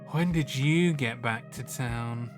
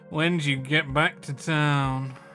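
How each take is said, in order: First: It is said in a posh, snooty voice. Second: It is said in a plain, unaffected voice. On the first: The speaker calls it right. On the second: The speaker calls it wrong. "That doesn't sound la-di-da"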